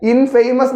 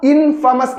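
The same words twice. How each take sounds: First: ഇൻഫേമസ് with a long "fay", like "famous"; wrong pronunciation. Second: ഇൻഫമസ് with a short "fa", no "fay"; correct pronunciation. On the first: Teacher shows students the reading to avoid, ഇൻഫേമസ് with "fay". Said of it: "ഇൻഫേമസ് എന്നല്ല". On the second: Teacher shows students how to read it, ഇൻഫമസ് with short "fa". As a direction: say ഇൻഫമസ് as IN-fuh-mus. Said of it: "ഇൻഫമസ് എന്നാണ് pronunciation". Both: Shown as a demonstration.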